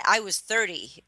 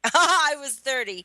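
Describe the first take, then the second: First: Said in the usual way. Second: Laughs, then says it higher; laughing. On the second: Real, not acted. Guest laughs at being the old one at thirty.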